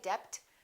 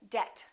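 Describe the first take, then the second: First: The B is sounded. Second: The B is silent. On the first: The speaker calls it wrong. "Don't say debt" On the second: The speaker calls it right. "say debt"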